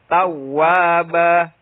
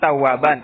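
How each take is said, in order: First: The word ends in a long a vowel. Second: The word ends with an -an sound. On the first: This is how it is read when stopping. "Tapi dibacanya. Kok berhenti?" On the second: This is how the word is written. "Tulisannya tawaban"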